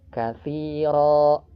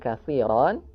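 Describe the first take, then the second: First: The word ends with a lengthened vowel, no n. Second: The word ends with a short vowel plus n. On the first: The reader stops on this word. "berubah menjadi katsiro, ro-nya dibaca dua harokat" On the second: The reading continues without stopping. "ketika kita berhenti di katsiran"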